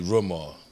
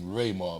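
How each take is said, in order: First: The first syllable does not sound like ray. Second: The first syllable sounds like the word ray. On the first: The speaker calls it right. "But it's really Rumar" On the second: The speaker calls it wrong. "a lot of people pronounce my name Raymar because of them"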